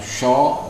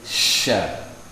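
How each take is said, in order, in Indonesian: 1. Bunyi sya terdengar tebal dan gelap. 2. Bunyi sya terdengar tipis dan terang. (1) "bukan sho, bukan gitu" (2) "tapi sya, tipis, terkik, jadi senyum"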